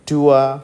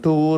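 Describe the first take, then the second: First: It glides from oo to uh without r. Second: It has a long oo and ends in r. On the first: "but that is the" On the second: "అలవాటు అయిపోయిన వాళ్ళకి"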